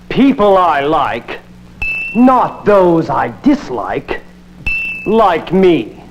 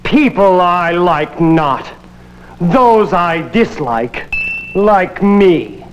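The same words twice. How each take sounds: First: The pause comes right before the word not. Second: The pause comes right after the word not.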